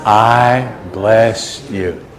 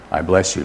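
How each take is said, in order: First: Very slow, words held out evenly; leading in unison. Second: Said in the usual way. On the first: Real, not acted. Preacher leads the congregation's blessing together, slow and drawn out. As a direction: stretch it out for everyone to join.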